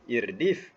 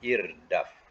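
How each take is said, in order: First: The final syllable has an 'i' vowel. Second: The final syllable has an 'a' vowel. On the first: The speaker calls it wrong. "Kalau dal bawah bunyi dif" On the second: The speaker calls it right. "Ini bunyi atas daf"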